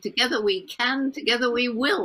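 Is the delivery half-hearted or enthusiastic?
enthusiastic. It is said loudly, with enthusiasm.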